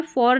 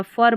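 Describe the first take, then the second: First: "फॉर" with a rounded O, "for"; "फॉर" with a full "or" vowel; wrong pronunciation. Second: "फर" with a neutral vowel, "fur"; "फर" with an unrounded schwa; correct pronunciation. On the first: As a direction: say "फॉर" like the word "four". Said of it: "फॉर नहीं पढ़ना है". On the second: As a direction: say "फर" short, as "fur". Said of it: "फर पढ़ना है". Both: Shown as a demonstration.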